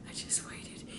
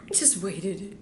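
First: Hushed whisper. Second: Said in the usual way. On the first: Shown as a demonstration. Pastor waiting in hiding for the prank, whispered. Building suspense before the prank.

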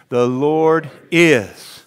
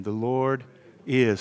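First: Very slow, each word stretched; slow drawn-out echo. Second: Said in the usual way. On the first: Shown as a demonstration. Pastor leads the congregation, slow drawn-out echo. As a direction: draw it out for them to follow. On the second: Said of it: "Come on, say it again".

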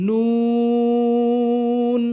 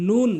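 First: নুন very long, loud and higher; correct pronunciation. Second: নুন short and plain; wrong pronunciation. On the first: Teacher modelling for learners, correct drawn-out নুন. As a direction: stretch নুন out on one held note. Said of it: "এভাবে উচ্চারণ করবেন টেনে". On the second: Teacher showing learners the mistake, short wrong নুন. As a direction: say নুন quickly, unstretched. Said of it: "ভুল উচ্চারণ". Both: Shown as a demonstration.

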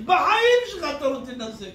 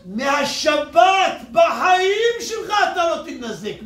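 First: Said in the usual way. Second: Louder and slower, leaning on בחיים; preacher hammering a promise to the crowd, slow and loud; slow preacher's shout. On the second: Acted. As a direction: shout "בחיים" and stretch the whole line out slowly. Preacher drives home the point.

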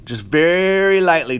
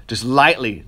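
First: "very" stretched out and leaned on, the phrase slowed; slow down and dwell on "very lightly"; stress on very. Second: Said in the usual way. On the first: Shown as a demonstration.

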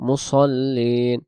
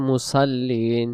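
First: "মুসল্লিন" drawn out, with thick s and o-like vowel; correct heavy sad. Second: "মুসাল্লিন" with thin s and open a; wrong light sin. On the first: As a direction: recite "মুসল্লিন" slowly with a full sad. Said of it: "তাহলে মুসল্লিন হবে, এখানে সদ অক্ষর দিয়ে". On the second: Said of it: "আমরা পড়ি অনেকে". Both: Shown as a demonstration.

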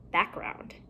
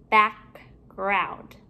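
First: Said in the usual way. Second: BACKGROUND with a gap between "back" and "ground"; two separate parts. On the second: Shown as a demonstration. Teacher building compound words for pupils, halves kept apart.

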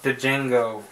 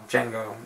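First: Django said wrongly with its silent D sounded out; mispronounced Django. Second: Django said "JANG-go", the D left silent. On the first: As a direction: sound the D at the start of Django as its own beat, "duh-JANG-go". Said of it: "I always used to think this is pronounced". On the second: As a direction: start Django straight on the J sound, lower and softer. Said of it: "D is silent". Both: Shown as a demonstration.

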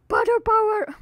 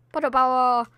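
First: Potter power pitched way up; a high, playful battle cry; high catchphrase. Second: Said in the usual way. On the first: Shown as a demonstration. Catchphrase said again, higher.

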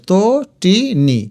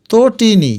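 First: Tatini slowly as to, ti, ni; syllable by syllable. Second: Said in the usual way. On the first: Shown as a demonstration. Teacher sounds it out for students, Tatini in slow syllables. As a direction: gap after each syllable of Tatini. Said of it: "এই যে". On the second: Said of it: "এটার উচ্চারণ".

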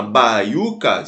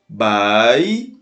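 First: Said in the usual way. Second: "Baiuca" split slowly into Bai, u, ca; syllable by syllable. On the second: Shown as a demonstration. Teacher splitting a word for students, "Baiuca" drawn out syllable by syllable. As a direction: stretch and separate each syllable of "Baiuca". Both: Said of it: "Se a gente separar as sílabas".

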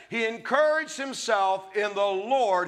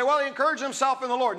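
First: "He encouraged himself in the Lord" slow, weight on "encouraged"; correct reading, stressed. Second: Quick, careless misquote; misquoting people. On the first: Shown as a demonstration. Preacher corrects the misquote, slow stressed "encouraged". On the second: Retold or imitated. Preacher mimics people's quick misquote. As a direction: rush it off like a common misquote. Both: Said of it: "No, it doesn't say that".

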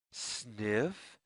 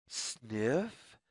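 No difference in how they are said.

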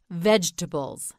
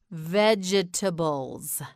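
First: Said in the usual way. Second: "Vegetables" slowly, all four syllables sounded. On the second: Shown as a demonstration. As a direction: draw out "Vegetables" as veg-e-ta-bles. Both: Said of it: "You say it".

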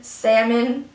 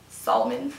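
First: Said in the usual way. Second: "salmon" said as sal-la-mon, sounding the L, softer; silly spelled-out salmon. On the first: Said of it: "accent tag word list". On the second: Shown as a demonstration. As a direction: joke reading of "salmon" with the L sounded.

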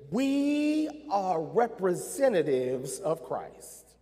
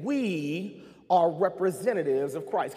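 First: Slow, deliberate, every word weighed; slow emphatic statement. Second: Repeated with "are" pressed hard; stress on are. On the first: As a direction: lay it down slowly. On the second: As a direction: lean on the word "are". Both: Shown as a demonstration. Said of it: "I'll say that again".

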